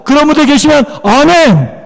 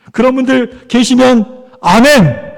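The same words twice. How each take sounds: First: Higher, rallying call for amen; insistent call to the congregation; rousing amen call. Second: Drawn-out call for amen; slow rallying call. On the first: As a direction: ask once more with real push, amen ringing out. 시원치 않습니다. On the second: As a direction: invite the congregation's amen, stretching the last word. Calls congregation for an amen. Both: Real, not acted.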